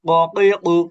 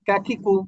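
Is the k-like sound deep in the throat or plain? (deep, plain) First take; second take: deep; plain. First: The k-sound comes from the tongue root. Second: The k-sound is a plain k. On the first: "এটা একটু জিহ্বার গোড়া থেকে উচ্চারিত হয়" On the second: "একবার হুবহু কা, বাংলা ক এর মতো কাকিকু"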